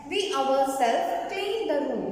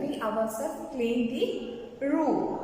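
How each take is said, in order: First: Said in the usual way. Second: Slower, measured classroom reading; slow repetition. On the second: Shown as a demonstration. Teacher repeating an example for the class, slow and deliberate. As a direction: say it slowly for note-takers.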